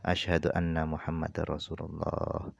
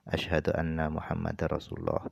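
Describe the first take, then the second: The two takes are said the same way.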